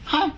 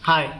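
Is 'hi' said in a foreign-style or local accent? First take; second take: foreign-style; local. First: It is said in an exaggerated foreign-style accent. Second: It is said in a plain local Bangladeshi accent. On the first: "ফরেনের ইংলিশে হাই কইলে কেমনে কব জানোস?" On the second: "এটা হইলো ঘরোয়া ভাষা, আমগো ইংলিশ।"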